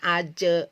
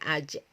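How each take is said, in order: First: The final consonant echo is slow and drawn out. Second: The final consonant gets one quick, short bounce. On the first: The speaker calls it wrong. "jangan uh, lambat ya, jangan aja, ij, tidak seperti itu" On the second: The speaker calls it right. "kolkola itu cukup dipantulkan ya"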